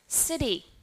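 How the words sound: It has an American accent with a flapped D. "And how about American English?"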